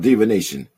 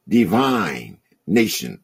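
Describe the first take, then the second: First: It is said as one single word. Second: It is split into two separate words. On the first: It means foretelling the future. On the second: It means a holy people.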